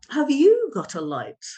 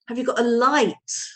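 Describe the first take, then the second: First: The word you carries strong emphasis. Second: The word light carries strong emphasis. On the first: The question is aimed at this person, not someone else. "if the meaning is not my brother, but you" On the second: The speaker wants a lamp, not a match. "they're really going to emphasize the, the final word"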